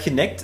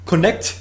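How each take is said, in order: First: The first syllable sounds like 'kin'. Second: The first syllable sounds like 'con'. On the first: The speaker calls it wrong. "meint man, wenn man es liest. Aber nicht" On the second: The speaker calls it right. "Phonetisch scheint das aber Connect ausgesprochen zu werden"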